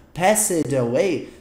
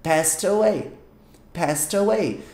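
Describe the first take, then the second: First: "passed away" as pass-ed away; wrong pronunciation. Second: "Passed away" with "Passed" as one syllable, past; correct pronunciation. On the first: Teacher voicing the learner's mistake, "passed away" with a sounded E. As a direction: give "passed" two syllables before "away", slowly. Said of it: "você ainda pronunciar". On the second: Teacher drilling the phrase, "Passed" said as past. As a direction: link "Passed away" as pas-taway, no E. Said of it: "É simplesmente". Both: Shown as a demonstration.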